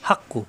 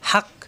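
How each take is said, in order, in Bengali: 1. শব্দটি ছোট u স্বরে শেষ হয়। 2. শব্দটি থেমে যাওয়া k ব্যঞ্জনে শেষ হয়। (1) "পরের কাফে পেশ কু" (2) "অক্ফ করলে হাক"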